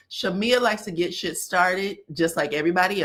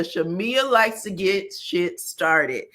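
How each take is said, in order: First: Said in the usual way. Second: Slow, with "likes" stressed and falling; slow emphatic repeat. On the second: Shown as a demonstration. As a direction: spell out "Shamea likes to get shit started" slowly. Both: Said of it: "Don't be putting too much on Shamea".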